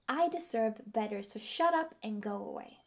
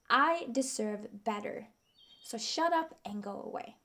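First: It is said calmly, with normal energy. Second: It is said loudly, with strong energy.

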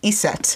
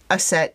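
First: The name begins with an 'i' vowel sound. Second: The name begins with an 'a' vowel sound. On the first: "You call her I-S-E-T, Iset" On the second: "I call her Aset, A-S-E-T"

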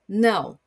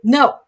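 First: A longer no that sounds certain. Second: A short, aggressive-sounding no.

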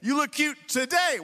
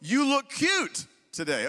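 First: The stress is on the word today. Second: The stress is on the word look.

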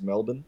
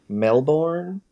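First: It is said the Australian way, without an R. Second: It is said the American way, with an R. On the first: "we don't pronounce the R, it's just Melbourne" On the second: "as you guys might say"

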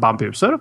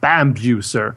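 First: It is pronounced the Swedish, Nordic way. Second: It is pronounced the American, international way.

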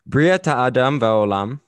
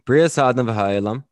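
First: The consonant before 'adam' is a t sound. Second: The consonant before 'adam' is an s sound.

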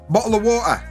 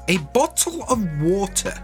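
First: It is said in an everyday British accent. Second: It is said in a stereotyped posh British accent.

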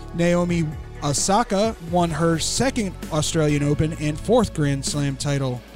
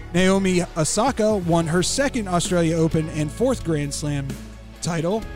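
Both takes have the same delivery.

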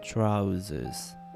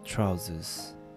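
First: It is said in a British accent, short. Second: It is said in a British accent, short.

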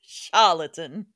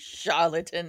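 First: It is said in an old Louisiana plantation-owner voice. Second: It is said in his normal voice.

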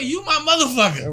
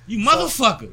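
First: It is said in a warm, friendly tone. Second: It is said in a harsh, hostile tone. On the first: The listener takes it as friendly and is fine with it. "And they cool with that" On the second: The listener takes it as an insult meant to harm. "But if you say it a different way"

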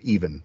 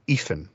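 First: The middle consonant sounds like v. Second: The middle consonant sounds like f. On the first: "instead of even" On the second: "all V, which is the voice, becomes the unvoiced, which is F"

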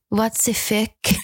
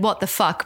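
First: It is said with a French accent. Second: It is said in a plain, unaccented way.

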